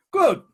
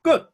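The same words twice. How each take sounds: First: Louder, higher "Good."; emphatic good. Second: Said in the usual way. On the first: Real, not acted. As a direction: snap the second "Good." up high and loud.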